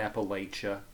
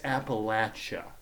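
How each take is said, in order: First: The middle syllable does not sound like 'latch'. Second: The middle syllable sounds like 'latch'. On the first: An outsider's way of saying it. The speaker calls it wrong. "not Appalachia" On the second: The local way of saying it. The speaker calls it right. "No, it's Appalachia"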